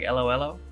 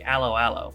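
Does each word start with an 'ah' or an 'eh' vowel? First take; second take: eh; ah. First: Each word begins with an 'eh' vowel. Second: Each word begins with an 'ah' vowel. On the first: The speaker calls it right. "but it's like Elo Elo instead" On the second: The speaker calls it wrong. "I was saying it like Aloe Aloe"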